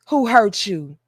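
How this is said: It is said warmly and sincerely. The asker truly wants to know and help. "y'all really want to know who hurt you"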